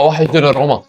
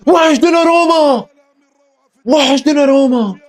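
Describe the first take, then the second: First: Said in the usual way. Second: Higher and slower, stretched out in mockery; sing-song mock lament; a fan teasing the rival team, drawn out. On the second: Real, not acted. Repeats the phrase mockingly.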